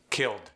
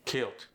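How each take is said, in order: First: Said in the usual way. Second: "Killed" said as "kilt"; T ending. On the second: Shown as a demonstration. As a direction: swap the final D of "Killed" for a T. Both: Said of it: "sneak a T in".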